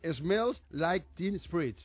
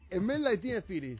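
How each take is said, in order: First: The title begins with the sound 'smells'. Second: The title begins with the sounds 'el men'. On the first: The speaker calls it right. "Eso está bien pronunciado" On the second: The speaker calls it wrong. "Eso no está bien pronunciado"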